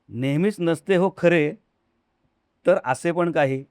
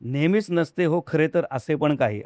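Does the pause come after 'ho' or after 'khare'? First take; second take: after khare; after ho. First: The pause comes after the word 'khare'. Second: The pause comes after the word 'ho'. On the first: "स्वल्पविराम कुठं आपण घालू, त्याच्यावरती बराचसा अर्थ बदलतो" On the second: "असं मी आत्ता म्हणलं"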